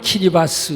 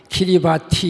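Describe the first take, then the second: First: The name ends with an 's' sound. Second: The name ends with a 'ti' sound. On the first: This is how the name is actually pronounced. "발음은 키리바스 이렇게 하고" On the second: This is how the spelling reads. "영어로는 케이 아이 알 아이 비 에이 티 아이, 키리바티 이렇게 되는데"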